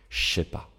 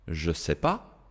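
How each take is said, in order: First: The 'je' becomes a voiceless 'sh' sound. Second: The 'je' starts with a voiced 'zh' sound. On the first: "le J se va devenir un son comme ch" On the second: "Première modification"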